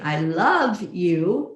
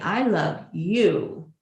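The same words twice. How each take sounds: First: The stress is on "love". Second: The stress is on "you".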